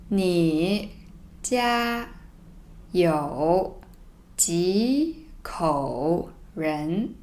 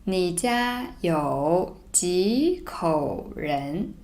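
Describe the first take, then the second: First: Slow, separated words; reading slowly word by word. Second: Slow, joined read; slow read-through. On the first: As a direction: read each word apart, very slowly. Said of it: "So let me read it slowly first". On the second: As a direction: read the line slowly but smoothly. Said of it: "let me read it slowly first". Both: Shown as a demonstration.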